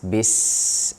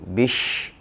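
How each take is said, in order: First: The consonant after 'bi' is a clear 's'. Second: The consonant after 'bi' is an 'sh'. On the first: The speaker calls it right. "Harus dijelasin huruf sin" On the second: The speaker calls it wrong. "Jangan campur sama, sama shin"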